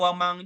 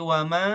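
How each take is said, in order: First: The final n becomes a velar ng sound. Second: The final n is a faint, hidden nasal. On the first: The speaker calls it wrong. "Tidak wamang juga" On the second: The speaker calls it right. "tapi wama oh itu agak samar"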